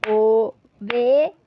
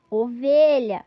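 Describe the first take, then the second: First: "Ovelha" very slow and louder, o-ve-lha; syllables clapped. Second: Said in the usual way. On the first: Shown as a demonstration. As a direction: beat out "Ovelha" slowly. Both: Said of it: "aquele recurso das palminhas".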